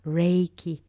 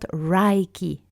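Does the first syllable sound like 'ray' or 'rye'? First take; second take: ray; rye. First: The first syllable has a long 'ay' vowel. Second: The first syllable has an 'eye' vowel. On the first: The speaker calls it right. "with a E that is quite long" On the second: The speaker calls it wrong. "it's not um, spelled with a A, so it's not Reiki"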